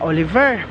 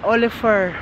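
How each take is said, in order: First: The middle consonant is a v sound. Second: The middle consonant is an f sound. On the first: "V yan. Ver" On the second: "Yung violet na V, pagbasa niya ay F or F"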